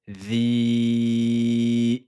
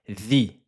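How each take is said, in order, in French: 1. La voyelle est tenue cinq temps. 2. La voyelle est tenue un temps. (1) "cinq temps" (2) "un temps on a dit"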